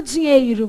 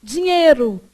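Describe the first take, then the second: First: "dinheiro" with the I of "ei" clearly sounded; over-pronounce "dinheiro" as "di-nhei-ro"; careful spelled-out "dinheiro"; unnatural full diphthong. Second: "dinheiro" said as "dinhêro", with no I glide; everyday reduced vowel. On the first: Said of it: "Você não fala dinheiro". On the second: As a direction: drop the I in "dinheiro": "di-nhê-ro". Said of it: "você fala dinheiro". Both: Shown as a demonstration.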